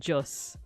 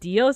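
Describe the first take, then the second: First: The word begins with a J sound. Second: The word begins with a D sound. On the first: The speaker calls it right. "it's pronounced Jos, like with a J sound" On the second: The speaker calls it wrong. "it's not pronounced Dios"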